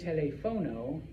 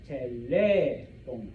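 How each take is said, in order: First: The stress is on the syllable fo. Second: The stress is on the syllable le. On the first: The speaker calls it wrong. "you do not say telefono" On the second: The speaker calls it right. "you say telefono, telefono. You put stress on that E"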